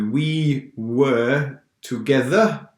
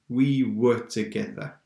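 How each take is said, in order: First: The word 'were' is said in full. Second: The word 'were' is said short and weak. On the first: The speaker calls it wrong. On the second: The speaker calls it right. "normally we say we were together"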